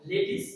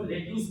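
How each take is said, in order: First: लेट्यूस said LET-is, short i ending; right pronunciation. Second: लेट्यूस with an oo ending, let-yoos; wrong pronunciation. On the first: Teacher correcting many people's reading, right pronunciation. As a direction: model लेट्यूस without the yoo. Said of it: "इसका right pronunciation होगा". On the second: Teacher quoting what many people say, wrong pronunciation. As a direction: misread लेट्यूस as spelt. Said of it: "एक wrong pronunciation है". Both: Shown as a demonstration.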